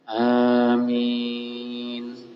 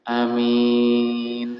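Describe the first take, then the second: First: The first vowel and the last syllable are lengthened. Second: The first vowel is short. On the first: "A-nya dipanjangkan. Ya, kemudian min juga dipanjangkan" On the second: "A-nya pendek"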